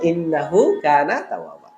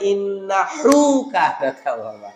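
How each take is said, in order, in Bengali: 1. innahu-এর h নরম ও হালকা। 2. innahu-এর h ভারী ও গলা থেকে আসা। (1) "ছোট হা" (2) "বলা যাবে না ... এরকম করা যাবে না"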